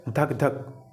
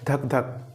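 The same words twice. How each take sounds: First: धक धक drawn out slowly like a heartbeat; slow heartbeat imitation. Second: Said in the usual way. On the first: Shown as a demonstration. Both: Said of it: "गांव देहात में कैसे बोलते हैं".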